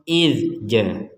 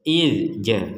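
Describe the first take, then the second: Both takes have the same delivery.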